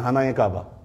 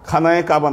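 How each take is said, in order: First: The first word begins with a plain h sound. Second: The first word begins with a raspy kh sound. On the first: "সব খ হ উচ্চারণ করে টার্কিরা" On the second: "খানায়ে কাবা না"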